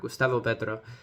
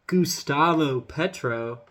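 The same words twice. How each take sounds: First: The name is said with a Spanish accent. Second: The name is said with an American accent. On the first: "I can speak Spanish perfectly fine" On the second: "sorry, I'm doing it with an American accent"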